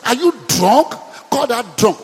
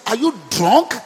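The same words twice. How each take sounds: First: Louder, scornful priest's question; mock accusing. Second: Said in the usual way. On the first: Priest accusing praying Hannah of drunkenness, louder. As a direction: throw the accusation at her. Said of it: "Listen to that". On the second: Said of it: "the priest in the temple said".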